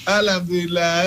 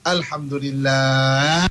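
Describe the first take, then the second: First: "Alhamdulillah" said quickly with a sob in the voice; a mock-crying, quivering "Alhamdulillah"; tearful Alhamdulillah. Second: "Alhamdulillah" stretched very slowly, low and calm; slow, drawn-out Alhamdulillah. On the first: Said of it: "berbeza intonasi dia". ("Alhamdulillah" dengan suara tersedu-sedan) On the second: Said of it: "mungkin intonasi berbeza". (ucap "Alhamdulillah" perlahan dan panjang) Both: Shown as a demonstration.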